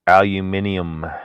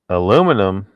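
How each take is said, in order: First: It is said with a non-American pronunciation. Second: It is said with an American pronunciation. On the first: The speaker calls it right. "would be the proper way to say it" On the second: The speaker calls it wrong. "That's the way Americans say it"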